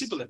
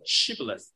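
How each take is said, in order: First: The word begins with an 's' sound. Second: The word begins with an 'sh' sound. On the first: The speaker is an Ephraimite. The speaker calls it wrong. "The best that they could do was Sibboleth. Their accent gave them away" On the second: The speaker is not an Ephraimite. The speaker calls it right. "this word"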